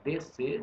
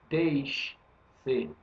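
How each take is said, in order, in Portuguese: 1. O S e o C se fundem em um único som. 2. O S e o C são pronunciados separadamente. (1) "Você fala D C" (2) "não fala D-C"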